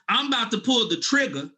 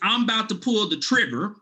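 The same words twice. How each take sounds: First: The final R of trigger is dropped. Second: The final R of trigger is clearly pronounced.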